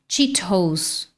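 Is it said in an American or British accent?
British. It is said in a British accent, clear t. "No inglês britânico, Cheetos"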